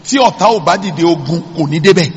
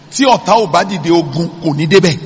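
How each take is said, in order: Both takes have the same delivery.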